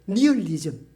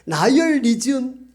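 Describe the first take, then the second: First: The first syllable sounds like 'nee'. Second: The first syllable sounds like 'nye'. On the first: The speaker calls it wrong. "영어식 발음을 잘 몰라가지고 니얼리즘 이렇게 배웠죠" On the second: The speaker calls it right. "나이얼리즘입니다"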